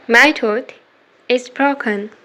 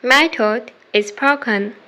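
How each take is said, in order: Both takes have the same delivery.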